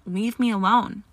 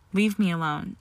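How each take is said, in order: First: Loud, upset outburst; screamed demand. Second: Understated tearful plea; a touch of trapped sobs, lightly voiced; tearful gargle. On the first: Granger drives Malfoy away, in a loud upset cry. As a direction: raise the voice to drive someone off. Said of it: "she screamed". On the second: Granger begs Malfoy to back off, understatedly tearful. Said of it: "she gargled". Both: A narrator's reading.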